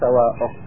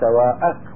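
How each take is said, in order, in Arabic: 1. الهمزة تتبعها حركة غير 'a'. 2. الهمزة تتبعها حركة 'a'. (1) "مو سواءك" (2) "فتح الهمزة في سواءك"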